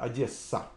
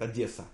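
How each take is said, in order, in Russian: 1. Звук s произносится долго, удвоенно. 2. Звук s произносится коротко, одиночно. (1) "до приезда сюда я говорю Одесса" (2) "они говорят с одним"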